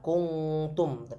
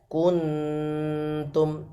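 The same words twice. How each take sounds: First: The nasal sounds like an 'ng' sound. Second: The nasal is a light 'n' sound. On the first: The speaker calls it wrong. "Bukan N G Indonesia ya, bukan kuntum" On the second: The speaker calls it right. "langsung dengung ke huruf nun"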